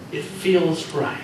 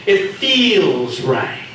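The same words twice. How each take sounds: First: Slow, drawn-out sarcastic echo; mocking repeat. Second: Very slow, louder, exaggerated sarcasm; louder mocking repeat. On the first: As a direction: mimic him with scorn. Reika mocks Hiro. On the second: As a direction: hammer his words back at him. Reika mocks again louder.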